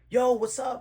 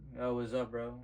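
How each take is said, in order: First: It is said lively and high in energy. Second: It is said flat and low in energy.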